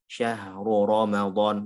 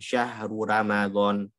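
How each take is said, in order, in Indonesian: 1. Vokalnya terdengar seperti bahasa Arab, dengan r yang berat. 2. Vokalnya terdengar seperti bahasa Indonesia, dengan r yang ringan.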